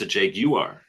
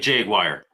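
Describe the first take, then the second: First: It is said with a British pronunciation. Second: It is said with an American pronunciation.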